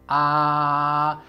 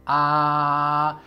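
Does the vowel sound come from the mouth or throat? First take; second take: mouth; mouth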